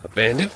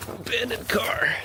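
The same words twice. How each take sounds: First: Said in the usual way. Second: Hushed whisper of discovery. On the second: Real, not acted. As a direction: breathe it out in a whisper.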